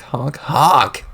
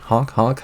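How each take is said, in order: First: Bigger clown horn honks, falling at the end. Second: Voiced clown horn honks, light and playful. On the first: Acted. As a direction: blast the honks like a creepy horn. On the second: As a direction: honk like a little clown horn. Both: Clown honks before the kill.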